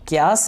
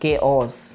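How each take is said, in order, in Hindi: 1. यह शब्द एक ही सिलेबल में दबा दिया गया है। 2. इस शब्द में दो सिलेबल हैं, kay-os। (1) "क्यास नहीं है ये लफ्ज़" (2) "बल्कि केओस"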